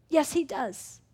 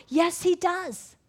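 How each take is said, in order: First: Said in the usual way. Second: YES and DOES drawn out, high and loud; a slow, loud "Yes, he does" that falls at the end; emphatic affirmation. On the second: Acted. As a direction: stretch "Yes, he does" slowly, punched and raised. Emphatic answer to accusing question.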